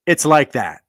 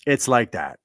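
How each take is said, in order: First: Higher and louder, hammering "It's like that"; "It's like that" driven home with force; emphatic. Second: Said in the usual way. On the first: Real, not acted. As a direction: punch "It's like that" hard and high.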